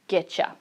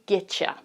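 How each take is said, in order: First: The T and Y blend into a ch sound. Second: The same.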